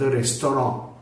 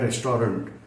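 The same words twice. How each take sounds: First: The word is said with French pronunciation. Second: The word is said with anglicized pronunciation. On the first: This is the original form of the word. "हा फ्रेंच शब्द रेस्टॉरंट" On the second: This is a corrupted, borrowed form of the word. "त्याचं अपभ्रंशित रूप आहे रेस्टॉरंट"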